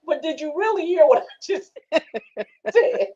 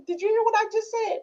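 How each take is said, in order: First: High, slow pressing question breaking into laughter; drawn-out playful grilling with laughter; laughing mock interrogation. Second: High-pitched acted check on a listener; playfully quizzing, voice raised high; mock questioning. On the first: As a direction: press on "really", then crack up.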